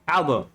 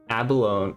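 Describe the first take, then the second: First: The word is said with two syllables. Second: The word is said with four syllables. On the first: The speaker calls it wrong. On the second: The speaker calls it right.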